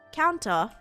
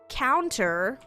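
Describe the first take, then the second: First: The final r is dropped, ending in ah. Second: The final r is pronounced.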